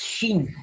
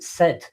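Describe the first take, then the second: First: It begins with a sh sound. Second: It begins with a plain s sound. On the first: The speaker calls it right. "but Orion's first wife means is Sheen" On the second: The speaker calls it wrong. "we don't pronounce it Sid"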